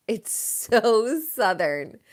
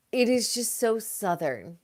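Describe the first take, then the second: First: Very slow, stretched "so Southern"; drawn out. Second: Said in the usual way. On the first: Shown as a demonstration. Hosts on the Southern drama, slow savoring take. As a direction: savor each word slowly. Repeats the phrase, then slows it.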